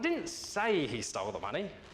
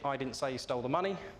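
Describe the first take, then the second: First: The stress is on the word say. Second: It is said in one flat tone.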